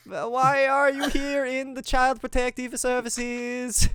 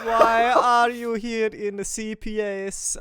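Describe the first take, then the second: First: Much higher and louder squeaky voice; higher Mario voice. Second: Higher and louder, but not fully committed; lazy version of the squeaky kid voice; half-hearted high voice. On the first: Asking ghost kids why they're there, squeaky high. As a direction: push the voice way up. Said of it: "this voice should be probably a higher". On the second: GM voicing a ghost kid, admits it should be higher. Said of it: "this voice should be probably a higher, but I cannot be fucked". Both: Pretend.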